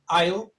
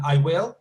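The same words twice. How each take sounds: First: "I'll" as one syllable, eye plus l; contracted I will. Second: "I will" as two separate words, louder; full uncontracted form. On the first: Teacher answering a student on contractions, "I'll" as one syllable. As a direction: run I and will together into "I'll". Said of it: "that sounds the same". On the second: Teacher spelling out the contraction for a student, full "I will". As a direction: give "will" its own syllable after "I". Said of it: "as in". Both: Shown as a demonstration.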